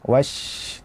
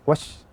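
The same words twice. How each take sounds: First: The sh sound flows on continuously. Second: The sh sound is cut short. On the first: The speaker calls it right. "huruf yang suaranya mengalir" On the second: The speaker calls it wrong.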